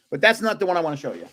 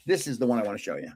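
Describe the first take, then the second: First: "that's" hit firmly, rest quick and dismissive; stress on that's. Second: "this" leaned on, then lower and softer; stress on this. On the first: Pointing past the wrong photo, leaning on "that's". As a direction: brush it aside, leaning on "that's". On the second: Showing the audience the right photo, stressing "this". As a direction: land on "this" as the photo appears. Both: Shown as a demonstration.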